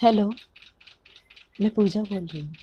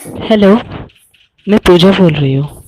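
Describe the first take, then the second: First: Put-on light girly voice, a touch higher; man doing a woman's voice. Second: Put-on loud girly voice on the phone; man doing a woman's voice. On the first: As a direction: softly play a young woman on the phone. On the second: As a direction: call out as a young woman, much louder. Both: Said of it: "लड़की की आवाज़ निकाली थी".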